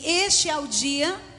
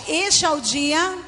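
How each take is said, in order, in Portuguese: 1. A frase é dita em volume normal, mais baixo. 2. A frase é dita mais alto e com mais força.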